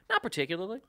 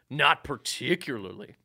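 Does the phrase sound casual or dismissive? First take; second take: casual; dismissive. First: It is said in a light, casual tone. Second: It is said in a curt, dismissive tone. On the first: The speaker simply has no strong interest. "But he could have just went" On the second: The speaker dislikes the other person. "your mind's probably going to go to the tone of"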